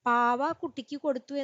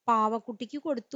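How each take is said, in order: First: The first two words are kept apart. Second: The first two words run together as one. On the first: "വിവൃതമാണെങ്കിൽ" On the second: "ഒരു ഗാഠമായ ബന്ധം വന്നു"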